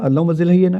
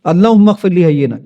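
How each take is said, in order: First: "اللہم زل حینا" with "زل" replacing "اغفر لی"; "اللہم زل حینا", garbled rote version with "زل"; mistaken pronunciation. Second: "اللہم اغفر لی حینا" with a clear "اغفر لی"; "اللہم اغفر لی حینا", corrected with the gh and f audible; corrected pronunciation. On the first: Retold or imitated. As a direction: say "اللہم زل حینا" as misremembered, with a zil sound. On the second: Shown as a demonstration. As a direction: say "اللہم اغفر لی حینا" in full, ghfir-li sounded. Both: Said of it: "میں نے غلط ہی یاد کیا ہوا تھا".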